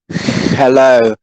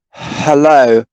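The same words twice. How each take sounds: First: It starts with a harsh scraping h sound. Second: It starts with a soft breathy h sound. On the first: The speaker calls it wrong. "We don't say ... or hello, hello" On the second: The speaker calls it right. "We say ... and hello, hello ... as if you were fogging a mirror"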